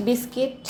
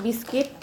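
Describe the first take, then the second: No difference in how they are said.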